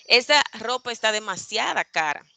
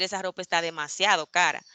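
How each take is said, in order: First: "demasiada" with final a; "demasiada" ending in a; wrong form. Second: "demasiado" with final o; "demasiado" ending in o; correct form. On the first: ("demasiada" con a final) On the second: ("demasiado" con o final) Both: Shown as a demonstration. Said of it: "en lugar de decir".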